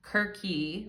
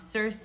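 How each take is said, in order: First: The name begins with a hard K sound. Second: The name begins with a soft S sound. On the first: This is how some people say it, closer to the old Greek. "some people pronounce it Kirky" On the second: This is the familiar way of saying it. "I'm going to use the name Circe because that's what I'm used to saying"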